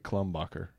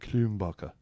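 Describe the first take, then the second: First: It is said with an American pronunciation. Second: It is said with a German pronunciation. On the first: "us in America would say Klumbacher" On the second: "they say Klumbacher"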